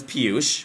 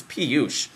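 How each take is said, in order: First: Said in the usual way. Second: "Piyush" as if smelling a stink; mildly grossed-out "Piyush"; mock disgust. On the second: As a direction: say "Piyush" like "pee-yoo". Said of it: "you smell something that reeks".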